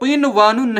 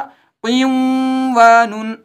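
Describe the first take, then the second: First: The n is pronounced clearly before the w. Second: The n merges into a doubled w sound. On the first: "इसको क़िनवानुन नहीं पढ़ते" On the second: "इस वाव पर तशदीद लगाकर यहां इदगाम होता"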